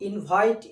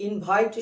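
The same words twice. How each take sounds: The two takes are said the same way.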